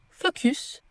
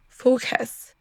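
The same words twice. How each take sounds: First: "focus" with French u, as spelt; French-style mistake. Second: "focus" with weak second vowel, fo-kəs; slow English "focus", u reduced to schwa. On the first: Teacher shows what not to say, French-style vowels. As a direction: read "focus" like a French word. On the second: Teacher corrects the mistake, English schwa. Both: Shown as a demonstration. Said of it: "On ne dit pas focus".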